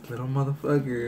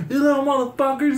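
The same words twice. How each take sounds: First: Understated, amused suspicion; smirking. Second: High-pitched imitation of an angry dad yelling; mock dad shout, pitched way up; retold yelling. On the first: Retold or imitated. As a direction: say it through a slight smirk. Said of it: "he had, like, a smirk". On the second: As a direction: holler it like a mad dad across the street. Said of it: "this fool's yelling at my homies".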